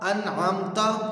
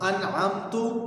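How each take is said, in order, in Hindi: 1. आखिरी अक्षर 'a' स्वर पर खत्म होता है। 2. आखिरी अक्षर 'u' स्वर पर खत्म होता है। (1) "आखिर में जो ता पर ज़बर है" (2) "उस ज़बर की जगह पेश पढ़ देना"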